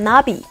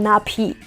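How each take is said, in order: First: The middle consonant is a voiced b. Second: The middle consonant is a voiceless p. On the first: The speaker calls it right. "میگم نابی" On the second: The speaker calls it wrong. "دیگه نمیگم ناپی"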